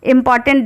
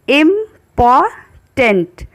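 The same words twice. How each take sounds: First: Said in the usual way. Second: इम्पॉर्टेंट slowly split into im-por-tent; इम्पॉर्टेंट stretched into three syllables; syllable demo. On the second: Shown as a demonstration. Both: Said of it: "three syllable का ये word है".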